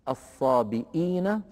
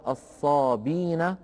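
First: A glottal stop is heard in the middle. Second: No glottal stop is heard in the middle.

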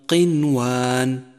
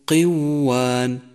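First: The n sound is clearly pronounced. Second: The n sound merges into the following sound. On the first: The speaker calls it right. "انقلب الحكم إظهارا" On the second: The speaker calls it wrong. "خطأ أن تقول"

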